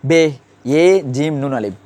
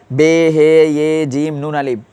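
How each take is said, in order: First: বে ইয়ে জিম নুন আলিফ, he absorbed into the first letter; বে ইয়ে জিম নুন আলিফ with no separate he; correct spelling-out. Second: Slow বে হে ইয়ে জিম নুন আলিফ, he as its own letter; wrong spelling-out. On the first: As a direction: spell it as bhe, ye, jim, nun, alif. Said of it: "আমরা বলবো কি?". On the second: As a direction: spell it slowly with a separate, stretched হে after বে. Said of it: "আমরা এইভাবে বলবো না". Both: Shown as a demonstration.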